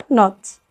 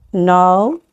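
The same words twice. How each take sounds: First: Not with a short o stopped by t; closed syllable, short vowel. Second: No with a long, drawn-out o; open syllable, long vowel. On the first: (حرف علة قصير مقفول بـ t في not) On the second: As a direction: stretch the open o at the end of no. (مد حرف العلة في آخر no) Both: Shown as a demonstration. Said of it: "تعالوا نفرق تاني بين ال open وال close".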